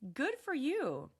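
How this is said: It is said in a warm, supportive tone. The speaker is genuinely pleased for the listener. "That sounds supportive"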